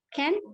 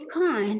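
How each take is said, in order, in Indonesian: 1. Ini diucapkan dengan aksen Amerika. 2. Ini diucapkan dengan aksen Inggris. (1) "American, let's say yang negatif bentuknya can" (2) "tapi kalau di accent British untuk kata yang negatif"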